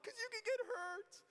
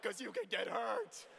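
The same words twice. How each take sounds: First: Put-on much higher, crying girlish whine; worried girls. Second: Louder, slower teasing dude voice; rowdy guys. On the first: Girls warning the rollerblading friend, high worried whine. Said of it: "And they're like". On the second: Retold or imitated. Boys at the pool party urging the jump, louder and slower. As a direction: egg him on like a gleeful bro. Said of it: "We're like".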